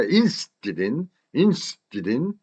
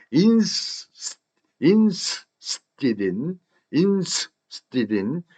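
First: "interested in" linked as "instidin"; joined-up reduction. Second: "interested in" as "ins", a gap, then "tidin"; broken-up reduction. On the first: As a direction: run "interested in" together without the T and R. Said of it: "이어서 발음하니까". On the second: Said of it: "ins가 되죠". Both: Shown as a demonstration.

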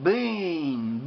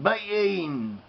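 First: BEEN drawn out into a long "beeen"; long, lingering vowel in BEEN; sounded out. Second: BEEN broken into "b-eeen"; sounded out in parts. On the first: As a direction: stretch the EE in BEEN. Sounding out the word from letters. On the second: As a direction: split BEEN after the B, long EE. Splits the word into its sounds. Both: Shown as a demonstration.

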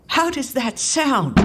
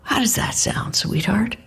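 First: Higher-pitched angry demand; angry father insisting on an answer; acted shout, more in pitch than volume. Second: Said in the usual way. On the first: A narrator's reading. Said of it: "He's shouting now".

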